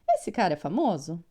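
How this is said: It ends with a rising question tune. It asks a question. "E eu dou aquela entonada"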